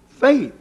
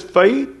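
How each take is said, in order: First: Faith lifted higher in pitch, then falling; faith stressed higher. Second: Said in the usual way. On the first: Shown as a demonstration. Preacher contrasting two kinds of faith, faith said higher. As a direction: lift faith up high and let it drop. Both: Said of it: "there is a difference when he says faith".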